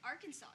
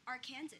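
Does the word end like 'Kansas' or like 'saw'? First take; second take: saw; Kansas. First: The word ends with a 'saw' sound. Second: The word ends like 'Kansas'. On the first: The speaker calls it right. "why do we pronounce it Arkansas?" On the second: The speaker calls it wrong. "why do we spell Arkansas, like, Arkansas?"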